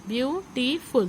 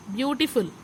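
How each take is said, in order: First: "beautiful" as three separate beats, view, टी, फुल; teacher's three-part breakdown of "beautiful"; syllable by syllable. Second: Said in the usual way. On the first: Shown as a demonstration. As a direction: sound out each syllable of "beautiful" with short gaps. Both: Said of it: "three syllable word".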